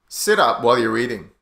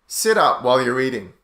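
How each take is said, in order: The two takes are said the same way.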